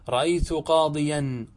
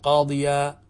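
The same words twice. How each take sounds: First: Slow قاضيا said qadiyan, final n; unpaused tanween. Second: قاضيا said qadiyaa, no n; pausal alif. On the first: Teacher gives the example before pausing, ending in -an. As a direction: sound the -an ending of قاضيا, slowly. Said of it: "أبدل من تنوينه ألف". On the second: Teacher shows how to pause on it, long aa. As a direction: end قاضيا on a long open aa. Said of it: "قف عليه". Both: Shown as a demonstration.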